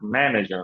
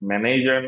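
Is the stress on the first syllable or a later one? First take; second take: first; later. First: The stress falls on the first syllable. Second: The stress falls on a later syllable. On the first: The speaker calls it right. "Stress হচ্ছে ম্যাথে" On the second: The speaker calls it wrong. "Manager না"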